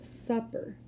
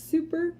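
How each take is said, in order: First: "supper" with a short u, like cup. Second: "super" with a long oo, like soon. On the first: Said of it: "I think I said supper earlier". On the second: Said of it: "but that's super". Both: Shown as a demonstration.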